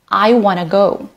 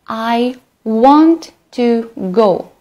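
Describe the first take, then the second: First: Want to is reduced to wanna. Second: Want to is said in full.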